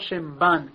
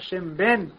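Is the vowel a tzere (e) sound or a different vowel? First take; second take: different vowel; tzere. First: The vowel is pronounced with a non-tzere sound. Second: The vowel is pronounced with a tzere e sound. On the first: The speaker calls it wrong. "ולא שם בן, כמו שיש כאלה קוראים" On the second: The speaker calls it right. "צריך לומר שם בן ... ככה, בצירה"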